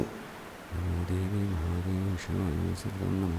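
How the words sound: It is murmured softly under the breath. "उपांशु ... under your breath कहते हैं"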